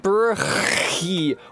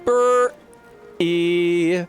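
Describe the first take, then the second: First: The middle sound is a breathy H. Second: The middle sound is a catch in the throat. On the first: "She's saying" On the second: "She's not saying"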